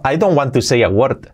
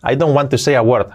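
No difference in how they are said.

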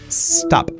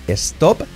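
First: The word starts directly with the S. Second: An E sound is added before the S. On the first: The speaker calls it right. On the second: The speaker calls it wrong.

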